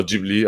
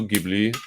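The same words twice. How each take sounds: First: Ghibli said as "JIB-lee"; soft G. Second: Ghibli said as "GIB-lee"; hard G. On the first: Guest offering the alternative, Ghibli with soft G. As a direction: say Ghibli with a J sound at the start. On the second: Guest unsure of studio's name, Ghibli with hard G. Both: Shown as a demonstration. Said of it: "don't know how to say that one".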